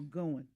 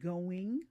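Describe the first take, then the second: First: The final G sound is dropped. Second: The final G sound is clearly pronounced. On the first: The speaker has had less schooling. The speaker calls it wrong. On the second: The speaker has had more schooling. The speaker calls it right.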